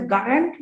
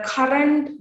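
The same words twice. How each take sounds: First: "current" said with a g for the k, like "garrent"; Jaffna Tamil pronunciation. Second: Said in the usual way. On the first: Shown as a demonstration. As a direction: voice the first sound of "current" into a hard g. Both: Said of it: "which is pronounced as current".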